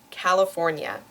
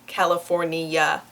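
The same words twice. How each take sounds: First: The word is said with four syllables. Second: The word is said with five syllables. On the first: The speaker calls it right. "it is four syllables long" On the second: The speaker calls it wrong. "not five. So it's not California"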